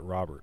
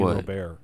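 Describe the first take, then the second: First: The name is said in an English-style way. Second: The name is said in a Spanish-style way. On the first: This is the pronunciation actually used for the name. "Like that's actually how you're supposed to pronounce it"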